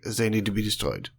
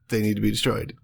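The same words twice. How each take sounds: First: It is spoken with a thick German accent. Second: It is spoken in a plain, unaccented voice. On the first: "you're doing a German" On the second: "Just fucking say it in English"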